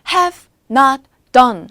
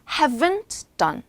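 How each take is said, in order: First: Not is said as a full separate word. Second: Not is contracted onto have. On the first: "have not done 할 수 있는 거지만" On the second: "haven't done 이 될 수도 있는 거예요"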